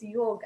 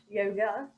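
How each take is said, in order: First: The word ends in a consonant sound. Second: The word ends in an 'a' vowel. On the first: This is the proper Sanskrit pronunciation. The speaker calls it right. "it's yoga" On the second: This is the Western pronunciation. The speaker calls it wrong. "and not yoga"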